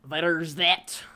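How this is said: It is said in a put-on Irish accent.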